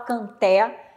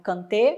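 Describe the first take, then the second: First: The final vowel is open. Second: The final vowel is closed. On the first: The speaker calls it wrong. "não fala canté" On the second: The speaker calls it right. "é sempre som fechado"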